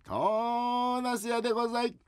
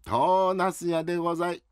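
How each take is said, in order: First: Slow, high, drawn-out peddler call; big vendor cry. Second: Vendor cry. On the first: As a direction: stretch the cry out slowly. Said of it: "大きな声で言えっつったな". (ゆっくり伸ばした売り声) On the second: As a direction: try out the street cry. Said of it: "トーナスって言った方がいい". (売り声の練習) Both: Acted.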